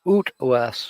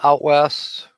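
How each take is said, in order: First: It is said in a Canadian accent. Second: It is said in his ordinary accent.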